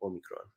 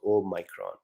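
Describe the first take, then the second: First: Omicron as "oh-MEE-kron", much softer; short-i pronunciation. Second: Omicron as "oh-MY-kron"; long-i pronunciation. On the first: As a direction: say Omicron quietly, with "mee" in the middle. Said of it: "So Omicron or Omicron". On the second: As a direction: say Omicron with "my" in the middle. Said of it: "It is actually a small o". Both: Shown as a demonstration.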